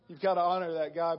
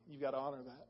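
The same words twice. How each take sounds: First: Louder, insistent demand on God; emphatic plea. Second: Softer, pleading under the breath; hushed plea. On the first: Retelling his prayer for his knee, louder and insistent. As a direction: press it out boldly, insisting. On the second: Retelling his prayer for his knee, hushed and pleading. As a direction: murmur it to God like a private prayer. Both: Retold or imitated. Praying aloud to God, retold.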